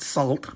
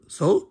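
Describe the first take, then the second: First: The name is said with an L sound. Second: The name is said without an L sound. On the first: The speaker calls it wrong. "It's not salt" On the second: The speaker calls it right. "but so"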